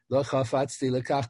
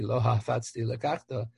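First: Chafatzti starts with a throaty ch sound. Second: Chafatzti starts with a plain h sound. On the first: The speaker calls it right. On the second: The speaker calls it wrong.

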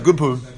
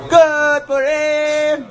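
First: It is said hesitantly and quietly. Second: It is said joyfully and loudly.

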